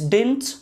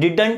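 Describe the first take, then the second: First: The second d sound is dropped. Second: Both d sounds are pronounced clearly. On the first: The speaker calls it right. "It's डिंट, second जो डी होता है ना वो silent होता है" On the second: The speaker calls it wrong. "डिडंट नहीं"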